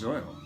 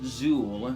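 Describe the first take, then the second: First: The vowel is an 'oy' sound. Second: The vowel is a plain 'oo' sound. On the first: This is the intended pronunciation. The speaker calls it right. "supposed to be pronounced Zoil" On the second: This is how some people say it. The speaker calls it wrong. "some folks pronounce it Zool"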